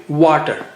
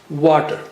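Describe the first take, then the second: Both takes have the same delivery.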